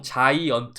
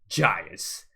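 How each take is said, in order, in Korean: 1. 한국식으로, 음절이 고르게 나가고 강한 강세는 없습니다. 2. 원어민식으로, 첫 음절에 강한 강세가 있습니다. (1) "우리는 보통 자이언트 이렇게 하죠" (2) "강세를 앞에다가 빡 찍어줍니다"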